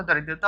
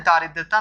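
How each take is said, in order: First: दरिद्रता said with a short first vowel, da-ridrata; दरिद्रता: keep the opening a short, da-rid-ra-ta; correct spelling read out. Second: दारिद्रता said with a long first vowel, daa-ridrata; दारिद्रता: stretch the opening aa, daa-rid-ra-ta; wrong spelling read out. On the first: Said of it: "दरिद्रता होता है". (दरिद्रता में पहला स्वर छोटा, द-रिद्रता) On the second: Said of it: "दारिद्रता नहीं होता". (दारिद्रता में पहला स्वर लंबा, दा-रिद्रता) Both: Shown as a demonstration.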